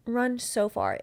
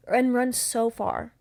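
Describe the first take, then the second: First: Said in the usual way. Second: "run so far" slowed right down, each word leaned on; stress on run so far. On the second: Real, not acted. Host urging women to flee love bombers, slow emphatic "run so far". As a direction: drag out "run so far" as a warning.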